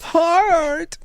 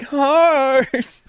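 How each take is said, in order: First: High cartoon hero call of Heart; squeaky mock power call; goofy Heart call. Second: High, drawn-out mock call of Heart; goofy Heart call. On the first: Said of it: "that's from the". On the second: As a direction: ham up the weakest hero's call. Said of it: "when he's like".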